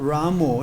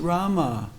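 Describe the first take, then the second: First: The name ends in an 'oh' vowel. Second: The name ends in an 'ah' vowel. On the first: The speaker calls it wrong. "it's not Ramo, it's not spelled Ramo" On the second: The speaker calls it right. "it's Rama"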